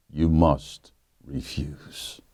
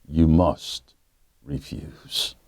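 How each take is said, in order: Both takes have the same delivery.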